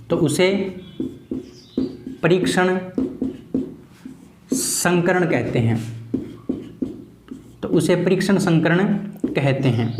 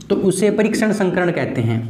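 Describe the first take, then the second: First: "तो उसे परीक्षण संकरण कहते हैं" broken into slow chunks with long pauses; teacher repeating the definition slowly for students to write; slow dictation. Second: Said in the usual way. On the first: Shown as a demonstration. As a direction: spell it out for note-taking, slowly. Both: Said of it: "repeated slowly for dictation".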